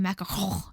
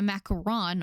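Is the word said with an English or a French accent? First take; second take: French; English. First: It is said with an exaggerated French accent. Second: It is said with a plain English accent.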